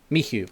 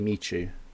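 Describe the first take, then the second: First: The middle consonant is an 'h' sound. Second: The middle consonant is an English 'ch' sound. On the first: This is how the person says his own name. "Do you literally say M I H U? Like Mihu?" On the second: This is the English reading of the name. "English wise, you'd say Michu"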